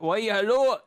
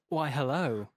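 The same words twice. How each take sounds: First: It is said with a German-sounding twang. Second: It is said in a smooth, suave voice. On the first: The speaker calls it right. "You've got to give it a bit of a German, like, twang" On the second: The speaker calls it wrong. "don't do a suave"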